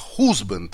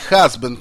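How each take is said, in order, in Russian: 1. Первая гласная — огублённый звук 'oo'. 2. Первая гласная — открытый звук 'ah'.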